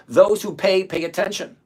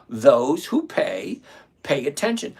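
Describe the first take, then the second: First: Said in the usual way. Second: Slow, lower, leaning on "who"; slow emphatic repeat. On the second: Shown as a demonstration. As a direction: drag it out so it sinks in.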